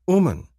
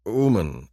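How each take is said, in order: First: Much higher, louder teaching voice; alien woman teaching a word. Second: Said in the usual way. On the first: Acted. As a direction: say it up high, showing the word Uman. Tia names her finger. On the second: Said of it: "I agree".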